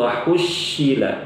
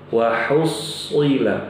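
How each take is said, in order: First: The s sound becomes an sh sound. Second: The s sound is a heavy emphatic s. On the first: The speaker calls it wrong. "diganti shin" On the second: The speaker calls it right.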